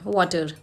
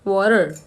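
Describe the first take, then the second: First: The t is a clear t sound. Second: The t sounds like a d.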